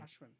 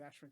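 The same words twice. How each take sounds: First: The first vowel sounds like an open 'ah'. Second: The first vowel sounds like the one in 'ash'. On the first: It is the proper Indian way of saying it. "official India pronunciation is" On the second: It is the version the speaker got used to. "I've always said Ashwin because I got used to it"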